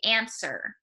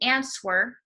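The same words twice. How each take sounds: First: The W sound is left out of the word. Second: The W sound is pronounced in the word. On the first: The speaker calls it right. "you say answer" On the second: The speaker calls it wrong. "you do not say answer"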